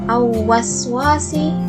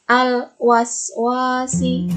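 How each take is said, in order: First: The L sound is left out entirely. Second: The L is pronounced clearly and steadily. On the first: The speaker calls it wrong. "Itu salah juga karena ada huruf lam yang harus dibaca di sana" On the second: The speaker calls it right. "Jadi dibacanya harus jelas"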